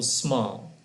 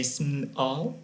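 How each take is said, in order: First: Said in the usual way. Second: "small" wrongly split as "sm... all", questioning; "small" in two pieces, asked as a question; broken mid-word. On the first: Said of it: "for example". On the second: Shown as a demonstration. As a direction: break "small" after "sm", ending on a rise. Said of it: "Can we stop, say".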